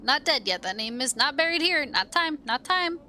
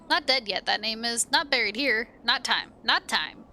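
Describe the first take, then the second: First: Sing-song dustman, rising. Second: Sing-song dustman. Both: Acted. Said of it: "curious sing-song voice".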